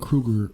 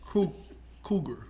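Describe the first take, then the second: First: An R sound follows the first consonant. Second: No R sound follows the first consonant. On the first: The speaker calls it wrong. "I'm saying it wrong" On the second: The speaker calls it right. "No R"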